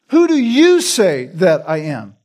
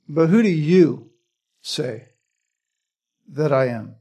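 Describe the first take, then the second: First: "you" punched, falling after it; stress on you. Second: "who" stressed, falling. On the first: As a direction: hit the word "you" hard. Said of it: "The emphasis is you at this point". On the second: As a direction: lean on "who", not on "you". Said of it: "The emphasis here is not who". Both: Shown as a demonstration.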